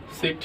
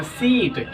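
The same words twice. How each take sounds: First: सिट with a quick, clipped short i; short vowel. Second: सीट with the ee drawn out long; long vowel. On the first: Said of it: "short sound में हम कह सकते हैं". (छोटी इ के साथ सिट, जल्दी बोलें) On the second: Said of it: "long sound मतलब लंबा खींचना". (सीट में ई को लंबा खींचकर बोलें) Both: Shown as a demonstration.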